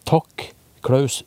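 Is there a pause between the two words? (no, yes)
yes. There is a short pause between the words. The named person is thanked directly. "som er rett etter det"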